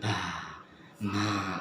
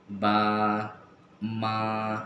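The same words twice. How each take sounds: First: "ba, ma" let out on an airy puff; wrong, breath escaping. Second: "ba, ma" voiced fully, with no breath escaping; no breath release. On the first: Teacher shows student the forbidden way, "ba, ma" with breath leaking out. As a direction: push breath out through "ba, ma" as a faulty example. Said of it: "karena ada keluar nafasnya". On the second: Teacher shows student letters without breath, "ba, ma" said breathless-free and voiced. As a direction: hold "ba, ma" clean, sealing off any puff of air. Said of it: "itu tidak keluar nafas". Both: Shown as a demonstration.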